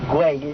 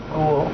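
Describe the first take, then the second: First: The name ends with a 'way'-like sound. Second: The name ends with an 'ool' sound. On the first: The speaker calls it right. "we can still pronounce güey and not have any trouble" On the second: The speaker calls it wrong. "one of the most mispronounced words in Barcelona. I've heard it being called ghoul"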